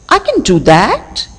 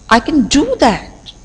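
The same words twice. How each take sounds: First: The stress falls on the word that. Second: The stress falls on the word do. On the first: "if I lay stress on the last word, that is that" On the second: "If I lay stress on the third word, that is do"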